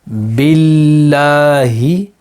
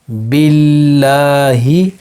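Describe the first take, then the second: Both takes have the same delivery.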